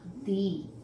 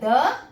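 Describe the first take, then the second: First: The word ends in a long 'ee' vowel. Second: The word ends in a short, neutral vowel. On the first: "ये दो तरीके से उच्चारण किए जाते हैं" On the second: "ये दो तरीके से उच्चारण किए जाते हैं"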